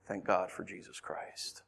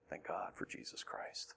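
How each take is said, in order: First: Low, slow, soft voice; hushed thanks. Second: Slow, barely audible whisper; whispered thanks. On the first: Preacher thanking God after lament, hushed. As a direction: give thanks softly and slowly. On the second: Preacher repeating thanks to God, whispering. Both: Real, not acted.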